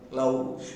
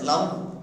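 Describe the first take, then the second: First: The vowel is said as a gliding diphthong. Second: The vowel is said as one steady vowel. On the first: The speaker calls it wrong. "We are using uh, the diphthong. ... That is totally wrong" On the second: The speaker calls it right. "Hereafter, pronounce the word"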